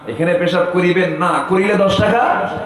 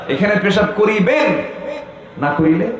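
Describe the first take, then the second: First: The pause comes after 'না'. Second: The pause comes before 'না'.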